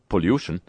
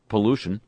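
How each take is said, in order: First: It is said in a put-on British accent. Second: It is said in a plain American accent.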